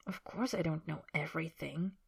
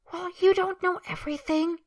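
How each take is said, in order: First: Quiet. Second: High, loud, petulant retort; sulky. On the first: Man answers his sulking companion, quiet and soft. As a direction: concede it gently under your voice. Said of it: "Harry says quietly". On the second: Man defends himself to his companion, sulky and high-pitched. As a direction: snap back in a huff. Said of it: "Draco says sulkily". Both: Acted.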